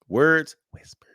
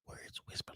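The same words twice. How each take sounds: First: It is spoken in a normal voice. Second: It is spoken in a whisper.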